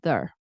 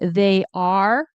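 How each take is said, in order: First: The merged syllable is said very quickly and reduced. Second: Both words are said fully. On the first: "in very fast speech, it goes there" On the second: "unless you're saying they are"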